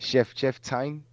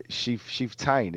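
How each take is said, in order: First: "Chef Tain" with a short e in Chef; trying another pronunciation. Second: "Chief Tain" with a long ee in Chief; trying a pronunciation. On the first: Podcaster querying a name, "Chef" said with a short e. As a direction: say "Chef Tain" slowly, first word like the cook. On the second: Podcaster puzzling over a name, "Chief" said with a long ee. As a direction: say "Chief Tain" slowly, first word like "cheef". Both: Shown as a demonstration.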